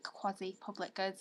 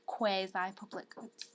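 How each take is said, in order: First: Quasi is pronounced the American way. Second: Quasi is pronounced the British way. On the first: "is like the American pronunciation" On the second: "being British myself"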